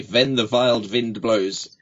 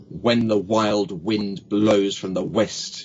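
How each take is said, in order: First: Slow "Ven the vild vind blows"; V on "When", "wild" and "wind", drawn out. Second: Slow, breath on each W of "When the wild wind"; blown W sounds. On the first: Coach demos contrast sound, slow V on "wild wind". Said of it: "then you're doing W's". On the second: Coach demos candle exercise, slow W on "wild wind". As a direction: round the lips for W in "wild wind" and "west", slowly. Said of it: "got the candle and said". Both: Shown as a demonstration.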